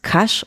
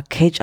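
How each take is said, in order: First: "Cache" with a sh ending, as in cash; intended pronunciation of Cache. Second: Imitated slip, "Cage" for cash; mispronunciation of Cache. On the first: Shown as a demonstration. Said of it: "du meintest Cache". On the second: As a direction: say "Cage" like the English animal cage. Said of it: "hast es aber Cage ausgesprochen".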